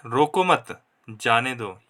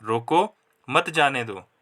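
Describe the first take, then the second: First: रोको मत run together, a break, then जाने दो; pause after मत. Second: रोको on its own, a break, then मत जाने दो; pause after रोको. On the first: Teacher showing the third sentence where letting go is meant, pausing after मत. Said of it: "यहाँ पर जाने देने की बात हो रही". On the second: Teacher repeating the comma example where stopping is meant, pausing after रोको. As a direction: break straight after रोको and keep मत जाने दो in one piece. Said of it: "यहाँ पर कॉमा की वजह से ... रोकने की बात हो रही है". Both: Shown as a demonstration.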